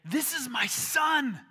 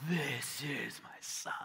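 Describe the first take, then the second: First: High, loud, slow shout; full-force divine announcement; booming God's voice. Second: Slow, breath-heavy whisper of God's voice; hushed, drawn-out divine whisper; awed whisper. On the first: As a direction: shout it proudly from the heavens. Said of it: "God's voice came booming out". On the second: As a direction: whisper it slowly, as if from the heavens. Imagines heavens breaking open, hushed awe. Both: Acted.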